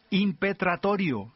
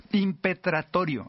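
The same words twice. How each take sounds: First: Said in the usual way. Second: "Impetratorio" spelled out slowly, each syllable clear and higher; slow careful pronunciation. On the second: Shown as a demonstration. Preacher slowly sounding out "Impetratorio" for the congregation. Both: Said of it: "así como se oye".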